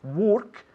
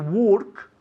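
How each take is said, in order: Both takes have the same delivery.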